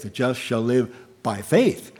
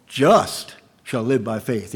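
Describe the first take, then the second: First: Faith made the key word, with a rise on faith; just stays light and faith lifts at the end; stress on faith. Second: Just hit hardest, the rest of the line falls away; the weight sits on just, faith stays light; stress on just. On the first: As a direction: save the push for faith. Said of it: "the emphasis is on faith". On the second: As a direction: lean on the word just. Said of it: "In this particular emphasis". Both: Shown as a demonstration.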